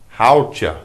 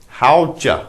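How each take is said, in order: Both takes have the same delivery.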